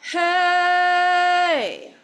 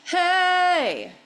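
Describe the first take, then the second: First: The word is drawn out longer. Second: The word is short.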